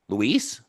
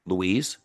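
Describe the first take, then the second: First: "Luis" alone, rising at the end; different tonality. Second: "Luis" pitched lower, slight lift at the end; different tonality. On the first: Coach shows Maria a name-only opener, questioning. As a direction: ask "Luis" as a short question. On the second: Coach shows Maria another name-only opener, lower tone. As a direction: drop "Luis" down, then turn it up gently. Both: Shown as a demonstration. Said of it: "there are different tonalities".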